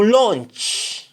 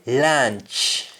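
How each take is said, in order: First: "launch" high, with rounded aw; "launch" said LAWNCH; English aw form. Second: "launch" said slowly as LAANCH; "launch" with open ah; Jamaican ah form. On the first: Teacher giving the English word, "launch" as lawnch. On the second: Teacher showing what Jamaicans say, "launch" as laanch. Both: Shown as a demonstration. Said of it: "we say launch".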